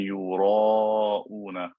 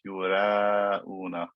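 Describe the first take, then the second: First: The long vowel sounds heavy and deep. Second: The long vowel sounds light and thin. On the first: The speaker calls it right. "the alif is preceded by a fat letter, so it will also be fat" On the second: The speaker calls it wrong. "not yura'una"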